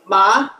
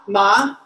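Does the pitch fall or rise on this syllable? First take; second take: rises; rises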